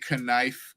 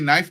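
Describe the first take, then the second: First: The initial K sound is pronounced. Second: The initial K sound is silent. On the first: The speaker calls it wrong. "we don't say" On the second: The speaker calls it right. "We say knife... The K is silent"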